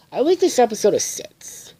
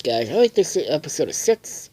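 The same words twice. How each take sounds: First: High hammed-up verdict voice; announcer delivery. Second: Said in the usual way. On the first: Reviewer announcing his rating, high hammed-up announcer. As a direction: declare the score like a show host. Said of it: "announces his rating". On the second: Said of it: "repeats rating plainly".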